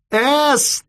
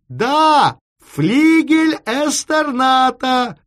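First: "Эстерната" yelled high in separate held syllables; shouted syllable by syllable. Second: High, slow yell of "Флигель Эстерната"; shouting. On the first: Chief repeating an unfamiliar name down the line, "Эстерната" shouted in pieces. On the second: Chief confirming the address by telephone, "Флигель Эстерната" shouted slowly. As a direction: shout "Эстерната" as one whole word. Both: A narrator's reading. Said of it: "и закричал ещё громче".

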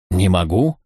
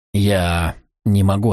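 First: "Не могу" rising into a question; questioning echo. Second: Slow, drawn-out reluctant admission; hesitant refusal. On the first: Brother challenging Dexter's refusal, "Не могу" as a rising question. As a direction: throw "Не могу" back with a questioning rise. Brother throws the words back. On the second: Dexter answering his brother, hesitant and slow. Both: A narrator's reading.

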